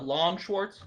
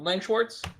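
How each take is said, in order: First: The first word has a long A vowel. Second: The first word has a short A vowel. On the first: "Sometimes pronounced with a long A sound"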